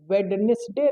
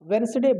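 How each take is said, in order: First: The middle d sound is pronounced. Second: The middle d sound is left out. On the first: The speaker calls it wrong. "वेडनेसडे नहीं, ड नहीं यहाँ बोलते हैं" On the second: The speaker calls it right. "ये डी missing रहता है"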